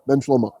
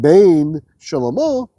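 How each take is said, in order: First: It is run together with one main accent. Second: It is said as two separately stressed words.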